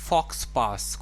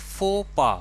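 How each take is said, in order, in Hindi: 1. x और s की आवाज़ बोली जाती है। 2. x और s की आवाज़ नहीं बोली जाती है। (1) "शायद आप इसे पढ़ेंगे फॉक्स पास" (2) "इसको हम प्रोनाउंस करेंगे फो पा"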